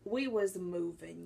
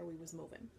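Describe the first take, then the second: First: We was moving, leaning hard on We, slow and louder; slow drawn-out emphasis. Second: We was moving, tossed off softly; trailing off quietly. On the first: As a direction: stretch it out slowly with a weight on We. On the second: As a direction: drop to a soft tag line, rising a little at the end. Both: Shown as a demonstration. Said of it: "repeats the line for emphasis".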